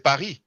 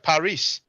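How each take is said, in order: First: The final S is silent. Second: The final S is pronounced. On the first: "in French, we don't actually pronounce the S" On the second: "in English, you pronounce the S"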